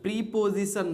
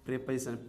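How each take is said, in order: First: The first vowel is a long ee. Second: The first vowel is a short e. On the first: The speaker calls it wrong. "प्रीपोजिशन नहीं, वो गलत है pronunciation" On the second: The speaker calls it right. "इसे हम लोग पढ़ते हैं प्रेपोजिशन"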